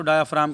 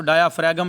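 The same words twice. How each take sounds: First: डायाफ्राम said with no g sound, as dye-uh-fraam; डायाफ्राम pronounced without the g, which is silent. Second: डायाफ्रागम said with a sounded g before the m, the mistaken way; डायाफ्रागम pronounced with the g spoken aloud, as students wrongly read it. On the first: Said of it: "ये जी silent है इसमें". (डायाफ्राम में जी silent, बिना ग के बोलें) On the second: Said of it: "इसको डायाफ्रागम नहीं पढ़ना". (डायाफ्रागम, ग बोलकर, गलत उच्चारण) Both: Shown as a demonstration.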